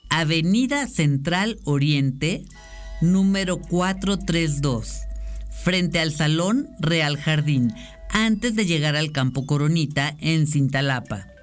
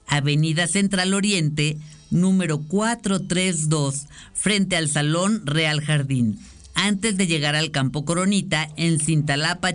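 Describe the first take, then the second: First: It is read more slowly. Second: It is read at normal speed.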